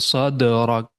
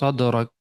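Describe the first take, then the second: First: The middle consonant has a strong, exaggerated echo. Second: The middle consonant has a light, natural echo. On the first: The speaker calls it wrong. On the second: The speaker calls it right.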